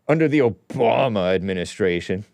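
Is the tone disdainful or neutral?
disdainful. It is said in a scornful, disdainful tone.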